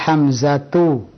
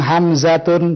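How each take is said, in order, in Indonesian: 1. Kata ini berakhir dengan vokal u. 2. Kata ini berakhir dengan bunyi n. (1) "Yang benar adalah Hamzatu" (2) "tidak boleh kita bilang Hamzatun"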